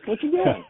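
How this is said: It is said in a friendly, smiling way.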